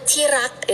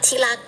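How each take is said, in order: First: The middle consonant is an R sound. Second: The middle consonant is an L sound. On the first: This is the careful standard form. "kita juga punya R" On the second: This is the lazy everyday form. "kita ganti R to L"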